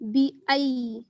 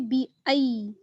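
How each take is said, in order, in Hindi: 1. दूसरा स्वर 'eye' की तरह सरकता है। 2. दूसरा स्वर 'eye' की तरह सरकता है।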